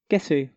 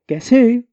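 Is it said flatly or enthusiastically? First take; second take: flatly; enthusiastically. First: It is said flatly, without much energy. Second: It is said with lively enthusiasm.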